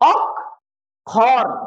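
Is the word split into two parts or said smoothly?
split. The word is split into two separate syllables.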